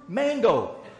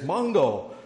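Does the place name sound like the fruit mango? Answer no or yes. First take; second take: yes; no. First: The name sounds like the fruit mango. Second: The name does not sound like the fruit. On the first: The speaker calls it right. "It's the fruit" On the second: The speaker calls it wrong. "we were taught before we went"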